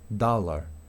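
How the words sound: The vowel is a long open a sound. "en inglés americano ... se va a pronunciar con una A larga"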